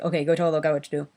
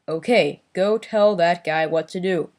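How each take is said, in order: First: Each word is spoken naturally and relaxed. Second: Each word is articulated with exaggerated care. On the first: The speaker calls it right. "I'd like it more like" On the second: The speaker calls it wrong. "No over enunciating. ... it'll be like"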